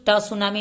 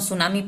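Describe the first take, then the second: First: The word starts with a t sound. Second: The word starts with an s sound. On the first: The speaker calls it wrong. "ट ट सुनामी नहीं पढ़ूंगी" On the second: The speaker calls it right. "इसको हम सुनामी पढ़ते हैं"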